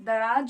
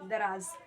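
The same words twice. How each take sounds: First: The word ends with a j sound. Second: The word ends with a z sound. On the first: The speaker calls it wrong. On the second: The speaker calls it right.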